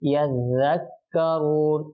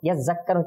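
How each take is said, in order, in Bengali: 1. দ্বিত্ব ব্যঞ্জনটি একটি নরম 'dh' ধ্বনি। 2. দ্বিত্ব ব্যঞ্জনটি একটি গুঞ্জনধর্মী 'z' ধ্বনি। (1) "সঠিকটা কি ইয়াজ্জাক্কারুন জাল" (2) "এটা ভুল"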